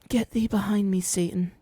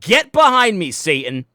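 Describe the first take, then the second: First: It is said timidly and softly. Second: It is said forcefully, like a shout.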